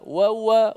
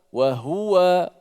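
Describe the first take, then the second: First: The h sound is dropped and merged. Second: The h sound is clearly pronounced. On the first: The speaker calls it wrong. "Ha itu tak jelas" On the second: The speaker calls it right. "kita nak kena jelaskan huruf ha tu"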